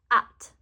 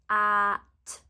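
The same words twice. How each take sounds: First: The word is said quickly together. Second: The word is stretched out slowly.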